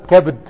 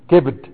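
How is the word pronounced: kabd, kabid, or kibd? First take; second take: kabd; kibd. First: It is said as kabd, with a silent b. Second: It is said as kibd, with an i vowel. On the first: "كبد بفتح الكاف وتسكين الباء" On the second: "بكسر الكاف كبد"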